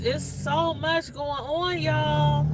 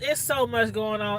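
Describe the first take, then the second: First: It is said imitating Tracy's voice. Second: It is said in the speaker's own voice.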